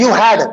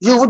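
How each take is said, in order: First: "you had" with a clear had; correct wording. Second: "You would" said with would in place of had; mistaken wording. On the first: Teacher corrects a common confusion, clearly said "you had". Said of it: "This is "you had". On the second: Teacher shows what confused people say, mistaken "You would". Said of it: "people could get confused. Some people say". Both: Shown as a demonstration.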